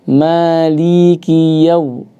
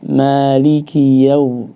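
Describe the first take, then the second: First: The li vowel is drawn out long. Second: The li is short, calm and undoubled. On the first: The speaker calls it wrong. "ada yang memanjangkan" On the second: The speaker calls it right. "bacanya ini usahakan ya dengan tenang"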